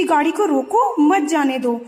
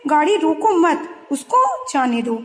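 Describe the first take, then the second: First: गाड़ी को रोको, a short break, then मत जाने दो; pause after रोको. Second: गाड़ी रोको मत together, a break, then उसको जाने दो; pause after मत. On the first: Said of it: "सिर्फ एक कोमा का डिफरेंस है". (रोको के बाद ठहराव, फिर मत जाने दो) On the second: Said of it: "second sentence में". (मत के बाद ठहराव, फिर उसको जाने दो) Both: Shown as a demonstration.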